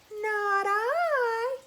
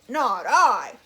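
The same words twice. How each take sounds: First: It is said in a whiny cat voice. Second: It is said in a gruff dog voice.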